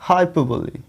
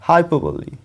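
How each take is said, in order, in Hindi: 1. शब्द का अंत 'ee' ध्वनि के साथ होता है। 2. शब्द का अंत 'ee' ध्वनि के साथ होता है।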